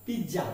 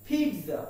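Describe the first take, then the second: First: Pizza said as "pij-ja"; wrong pronunciation. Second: Pizza said as "peet-sa"; "ts" sound in the middle of pizza; corrected pronunciation. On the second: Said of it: "The pronunciation is". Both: Shown as a demonstration.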